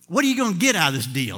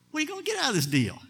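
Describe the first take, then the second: First: Said in the usual way. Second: "What are you gonna get out of this deal?" pitched up and rushed; high, fast rhetorical question. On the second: Shown as a demonstration. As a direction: toss the question up high and quick.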